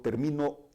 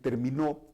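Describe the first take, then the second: First: The stress is on the second syllable. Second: The stress is on the last syllable. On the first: I finish, in the present. "el acento lo llevaría en la sílaba mi" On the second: He or she finished, in the past. "es una palabra aguda"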